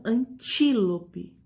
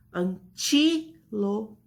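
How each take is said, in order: First: "antílope" slow, as one word with a strong TI; stress on TI. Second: "Antílope" very slow, split AN-TI, LO, PE; syllable by syllable, TI stressed. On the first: Teacher gives the example word, TI stressed in "antílope". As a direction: lean on TI in "antílope". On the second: Teacher separates syllables for the class, "Antílope" split with TI stressed. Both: Shown as a demonstration. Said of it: "é o ti".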